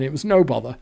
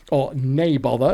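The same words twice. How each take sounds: First: Said in the usual way. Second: "nay bother" with "nay" said as Scots "nay" for "no"; Scottish "nay". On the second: Shown as a demonstration. The teller trying the local Scottish phrase "nay bother". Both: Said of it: "as you might say".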